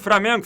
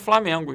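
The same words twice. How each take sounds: First: The first syllable is said with an R sound. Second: The first syllable is said with an L sound. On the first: The speaker calls it wrong. "E só Flamengo" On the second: The speaker calls it right. "Mas o certo é Flamengo"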